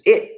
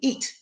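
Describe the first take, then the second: First: The vowel is short, as in English. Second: The vowel is long, like the word eat. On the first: "is it in English" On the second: "But they would pronounce it, the word it, I T, eat"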